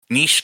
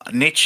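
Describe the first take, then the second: First: It uses the French-influenced pronunciation common in Britain. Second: It uses the older pronunciation common in America. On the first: "came about likely under influence from French pronunciation" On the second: "the historical pronunciation that is more popular in the U S"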